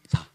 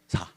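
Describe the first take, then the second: The two takes are said the same way.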